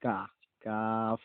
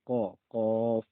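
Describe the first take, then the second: First: কা and কাফ light, from the front of the mouth; teacher contrasts light কাফ with heavy কফ; light kaf. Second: Teacher contrasts heavy কফ with light কাফ; heavy qaf. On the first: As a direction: keep কাফ light and forward. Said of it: "আর এটা হবে কা". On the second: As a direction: throw কফ from the back, loudly. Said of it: "এটার উচ্চারণ হবে ক". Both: Shown as a demonstration.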